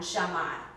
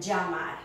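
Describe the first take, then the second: First: The double L sounds like an English SH. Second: The double L sounds like an English J. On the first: "In Argentina, ... like an S H" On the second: "rather than llamar. I give it a stronger sound"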